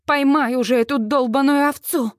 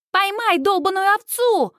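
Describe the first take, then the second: First: Said in the usual way. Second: High, mocking British-accent echo; mimicked British accent. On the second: A narrator's reading. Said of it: "идеально копируя британский акцент".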